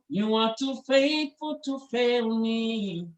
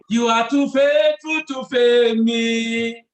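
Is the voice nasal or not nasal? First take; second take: nasal; not nasal. First: It is said with nasal resonance. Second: It is said without nasal resonance.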